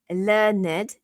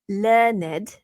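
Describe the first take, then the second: First: The word is said as two syllables. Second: The word is said as two syllables.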